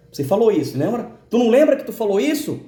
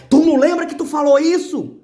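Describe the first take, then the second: First: Accusing voice. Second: Higher, louder accusing voice, pressing hard; stronger voice. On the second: The inner voice pressing the speaker about his words, much louder accusation. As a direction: make the accusation hit harder. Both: Retold or imitated. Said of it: "A voz vinha mais forte".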